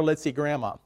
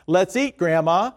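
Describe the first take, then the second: First: "Let's eat, Grandma" in einem Zug, leise und fallend; run together. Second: "Let's eat," kurze Pause, dann "Grandma" mit steigendem Ton; pause at the comma. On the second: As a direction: pause after "eat", then lift on "Grandma". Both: Shown as a demonstration. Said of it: "there's a world of difference between".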